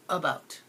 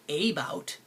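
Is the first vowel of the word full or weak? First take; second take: weak; full. First: The first vowel is a short, weak uh. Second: The first vowel is full and clearly separated. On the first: The speaker calls it right. "It's making the schwa" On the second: The speaker calls it wrong. "I don't say a bout"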